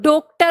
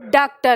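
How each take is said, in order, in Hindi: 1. पहला स्वर बंद o है। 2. पहला स्वर लंबा खुला aa है। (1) "ओ की मात्रा लगा के देखी" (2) "हमने इसको आ के साथ लिखा"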